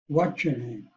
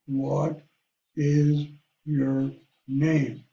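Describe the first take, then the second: First: The words are blended together into one flow. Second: Each word is pronounced fully and separately. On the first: This is how people naturally speak. "we really blend words together" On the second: This is how written text is read aloud. "Now you pronounce each word"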